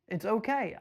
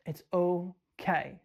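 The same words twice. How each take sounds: First: Said in the usual way. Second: Slow soothing "It's okay."; calm them down gently; drawn-out comfort to worried buyers; slow reassuring. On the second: Real, not acted.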